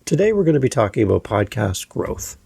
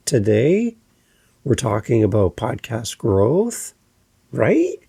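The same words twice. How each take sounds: First: "growth" falling firmly at the end; confident statement fall; with authority. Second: "Today" and "growth" each rising at the end; unsure rising delivery; upspeak. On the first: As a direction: drop "growth" down with conviction. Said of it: "with authority". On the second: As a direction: lift "growth" up like a question. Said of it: "this would be your upspeak". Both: Shown as a demonstration.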